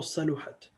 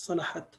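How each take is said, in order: First: صلحت as saluhat, middle vowel u; alternative pronunciation. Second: صلحت as salahat, middle vowel a; alternative pronunciation. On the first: Teacher showing second accepted reading, صلحت with middle u. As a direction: say صلحت "sa-LU-hat". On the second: Teacher showing one accepted reading, صلحت with middle a. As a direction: say صلحت "sa-LA-hat". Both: Shown as a demonstration. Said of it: "So it could be pronounced as".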